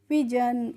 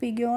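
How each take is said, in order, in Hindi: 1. बीच का व्यंजन एक j ध्वनि है। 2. बीच का व्यंजन एक कठोर g ध्वनि है। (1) "इसको हम पढ़ते हैं पिजन" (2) "इसको पिगियन नहीं पढ़ते हैं"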